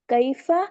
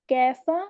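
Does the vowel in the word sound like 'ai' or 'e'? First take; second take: ai; e. First: The vowel is said as an 'ai' sound. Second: The vowel is said as an 'e' sound. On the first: "मारूफ आवाज़ है" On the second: "मजहूल आवाज़ है"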